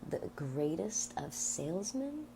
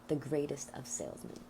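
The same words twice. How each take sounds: First: It is said as a question, rising. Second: It is said as a statement, falling.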